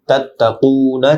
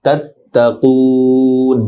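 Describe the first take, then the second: First: "তাত্তাকুনা" with the final "না" sounded; full unpaused form. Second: "তাত্তাকুন" with a long held "কু", closing on n; three-alif pausal lengthening. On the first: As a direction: say "তাত্তাকুনা" through to a short last vowel. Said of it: "তাত্তাকুনা থেকে". (শেষে না সহ তাত্তাকুনা) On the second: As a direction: stretch the last "oo" of "তাত্তাকুন". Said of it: "তিন আলিফ লম্বা হবে". (তিন আলিফ টেনে তাত্তাকুন) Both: Shown as a demonstration.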